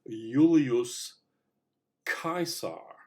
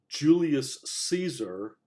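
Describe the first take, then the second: First: The first vowel of Caesar sounds like 'eye'. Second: The first vowel of Caesar is not 'eye'. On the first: "pronounced in classical Latin" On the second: "we say"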